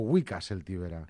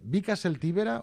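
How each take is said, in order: First: The first word begins with a W sound. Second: The first word begins with a B sound. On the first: The speaker calls it right. "la nominació és Wicca" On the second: The speaker calls it wrong. "perquè jo dic Vica"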